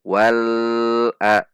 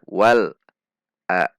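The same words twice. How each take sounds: First: The l sound is stretched too long. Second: The l sound is cut off abruptly. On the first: "terlalu panjang"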